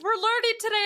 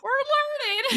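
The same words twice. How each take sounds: First: High, innocent quoted voice; imitating oblivious co-host. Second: Very high, strained echo; mock tearful squeak. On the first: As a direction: play the co-host who has no idea. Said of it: "and she's like". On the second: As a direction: imitate squeaking through tears of laughter. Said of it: "I have tears streaming down my face".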